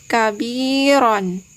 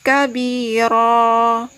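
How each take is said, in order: First: The word ends with a final n sound. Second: The word ends on a lengthened open vowel. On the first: The reading continues into the next word. "tidak diwakafkan atau tidak diberhentikan" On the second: The reading stops at this word. "ketika kita wakafkan atau kita berhentikan"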